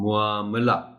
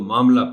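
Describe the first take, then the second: First: The start is said fully as mu-a. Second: The start is shortened to ma. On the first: The speaker calls it right. "मुआमला जैसे मुकाबला" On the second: The speaker calls it wrong. "हम इसको जल्दी में ... मामला पढ़ जाते हैं"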